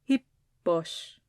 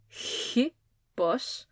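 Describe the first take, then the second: First: The opening H is soft and light. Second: The opening H is strong and harsh. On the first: It marks the rough breathing only. The speaker calls it right. "very, very lightly" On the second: It sounds like a different letter. The speaker calls it wrong. "not to make that rough breathing mark go Hippos"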